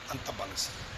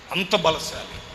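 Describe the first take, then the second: First: అంత బలశాలి dropped low and soft; hushed echo. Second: Said in the usual way. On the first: Shown as a demonstration. Preacher marvelling at uncle's strength, hushed echo. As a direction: let it fade to a near-whisper.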